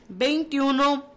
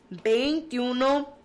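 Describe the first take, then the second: The two takes are said the same way.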